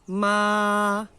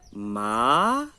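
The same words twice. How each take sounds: First: The pitch stays high, level and long. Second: The pitch rises from middle to high. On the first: "é uma entonação alta e longa" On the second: "é uma entonação crescente"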